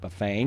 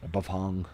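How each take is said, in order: First: The name is said in a Chicago accent. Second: The name is said the common, standard way. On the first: "I say it with my ch- Chicago accent" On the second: "as most people call it"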